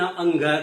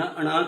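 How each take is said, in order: First: It is said as 'anga' with a full g. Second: It is said as 'ana' with a retroflex n. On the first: "न अंगा कहेंगे" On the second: "न अणा कहेंगे"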